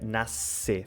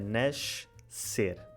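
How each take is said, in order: First: The middle consonant is a plain s sound. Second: The middle consonant is a sh sound. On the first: This is the Brazilian way. "No Brasil fica nascer, fica sempre S" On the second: This is the original Portuguese way. "originalmente era nascer"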